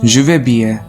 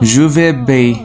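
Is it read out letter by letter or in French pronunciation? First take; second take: French pronunciation; French pronunciation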